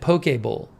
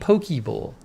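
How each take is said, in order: First: The first word lacks the ee ending. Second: The first word ends in an ee sound. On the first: "rather than" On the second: "Pokey is more fun. I like saying"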